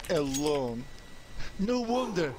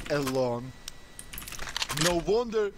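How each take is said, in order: Both takes have the same delivery.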